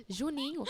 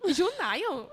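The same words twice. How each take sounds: First: Said in the usual way. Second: "Junaio?" said with "ai" in place of "inh", higher and louder as a puzzled question; "Junaio?" as a confused mishearing of Juninho; mispronounced name. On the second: Retold or imitated. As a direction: ask "Junaio?", mangling the name on purpose.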